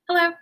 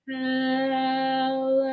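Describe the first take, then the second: First: It is said very fast. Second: It is said very slowly.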